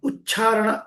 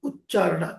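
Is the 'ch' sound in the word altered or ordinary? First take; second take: ordinary; altered. First: The 'ch' sound is said the ordinary way. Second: The 'ch' sound is said in a non-ordinary way. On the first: The speaker calls it wrong. "ఉచ్చారణ కాదు" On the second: The speaker calls it right. "చాకు normal చావద్దు"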